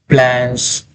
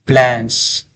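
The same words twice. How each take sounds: The two takes are said the same way.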